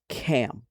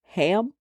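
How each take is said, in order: First: The name begins with a K sound. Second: The name begins with an H sound. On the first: This is the original form. The speaker calls it right. "but the word is actually Cam" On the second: This is the commonly used form. The speaker calls it wrong. "It is known as Ham in our society"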